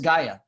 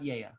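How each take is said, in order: First: The word begins with a hard G sound. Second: The word begins with a Y sound. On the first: "it's Gaia" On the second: "not not Yea"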